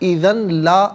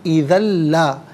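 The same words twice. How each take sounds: First: The n sound is pronounced before the l. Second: The n sound merges into the following l. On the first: The speaker calls it wrong. "गलत है" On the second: The speaker calls it right. "इसे ला के लाम के साथ मिलाएंगे"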